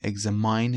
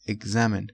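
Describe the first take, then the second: First: "examine" ending like "mine", eg-ZE-mine; wrong pronunciation. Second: "examine" ending in a short "-men", ek-ZAE-men; correct pronunciation. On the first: Teacher showing students the wrong ending, eg-ZE-mine. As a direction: say "examine" rhyming the end with "mine". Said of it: "نمیگیم". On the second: Teacher giving students the right ending, ek-ZAE-men. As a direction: say "examine" with a short last syllable, not "-mine". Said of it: "examine نمیگیم". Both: Shown as a demonstration.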